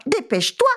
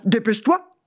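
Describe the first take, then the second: First: High, meowing hurry-up on Dépêche-toi. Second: Growling. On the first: Cat urging the mouse to hurry, meowing. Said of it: "miaulait le chat". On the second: Dog urging the mouse to hurry, growling. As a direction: growl Dépêche-toi impatiently. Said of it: "grondait le chien". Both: A narrator's reading.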